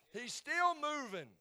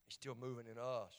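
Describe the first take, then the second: First: High, loud, drawn-out preacher's cry; roaring pulpit shout; shouted proclamation. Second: Said in the usual way. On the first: Real, not acted. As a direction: belt it out slowly as a climax. Climax of shouted Easter proclamation.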